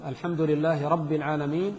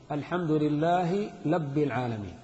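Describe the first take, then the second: First: Said in the usual way. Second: "رب" said "لب", l in place of r; slow recitation, lisping the r of "رب" into an l, "لب"; ra turned to lam. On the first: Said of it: "الراء باللام". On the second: Shown as a demonstration. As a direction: demonstrate the lisp: labb for rabb in "لب العالمين". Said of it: "مثلًا الراء باللام".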